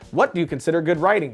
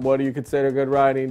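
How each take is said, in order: First: It is read in a lively, varied voice. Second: It is read in a flat, monotone voice.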